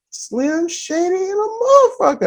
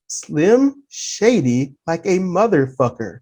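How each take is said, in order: First: High, softer mimicked voice; imitated assistant supervisor. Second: Low, slow, soft reply; retold deadpan agreement. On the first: Assistant supervisor to the dock attendant, imitated high and soft. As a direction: imitate a colleague in a raised, held-back pitch. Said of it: "He was like". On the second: Dock attendant agreeing with the supervisor, retold low and slow. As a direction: draw it out slowly and quietly, pitched down. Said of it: "I looked at him, I said".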